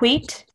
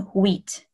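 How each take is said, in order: First: The word begins with an H sound. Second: The word begins with a W sound. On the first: The speaker calls it wrong. "it's not wheat. They don't really pronounce H in French very often" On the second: The speaker calls it right. "So it ends up being wheat, like a W sound"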